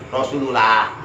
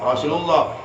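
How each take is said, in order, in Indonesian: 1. Bunyi 'l' pada 'lah' itu tipis. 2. Bunyi 'l' pada 'lah' itu tebal. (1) "nggak boleh dibaca tipis" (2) "tafkhim tebal"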